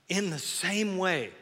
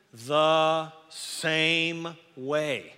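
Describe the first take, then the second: First: Said in the usual way. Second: Very slow, sung-out "same way"; drawn out. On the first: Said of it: "repeats phrase". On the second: Shown as a demonstration. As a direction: stretch "the same way" like a chant. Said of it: "drawn-out scripture phrase".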